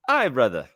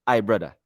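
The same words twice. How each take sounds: First: Put-on amateur try at an Indian accent; attempted Indian accent. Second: Attempted Indian accent sounding Nigerian; accidentally Nigerian accent. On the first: Second try at the elevator greeting, attempted Indian accent. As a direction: have a go at sounding Indian. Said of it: "I don't have an Indian accent, but I'ma try". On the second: Greeting him in the elevator, accent slipping into Nigerian. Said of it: "why it sounds so Nigerian".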